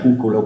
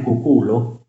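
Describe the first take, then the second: First: The stress is on the first syllable. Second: The stress is on the second syllable. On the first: The speaker calls it wrong. "con errata ritrazione dell'accento" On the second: The speaker calls it right. "La pronuncia corretta è cuculo"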